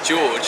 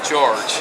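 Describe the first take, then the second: First: The name is said without a strong R sound. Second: The name is said with a strong R sound. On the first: This is how the speaker's own accent says it. "I'd say George is my name" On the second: This is how someone from Bristol says it. "She would literally call me George"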